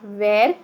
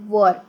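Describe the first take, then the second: First: The vowel sounds like 'air', as in 'wear'. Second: The vowel sounds like 'er', as in 'fur'. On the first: The speaker calls it wrong. "Not वेर" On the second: The speaker calls it right. "It is वर"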